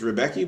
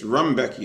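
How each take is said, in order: First: The name sounds like Rebecca. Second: The name sounds like Rumbecki. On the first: The speaker calls it wrong. "I used to always think it was Rebecca" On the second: The speaker calls it right. "but it's Rumbecki. That's how they pronounce it"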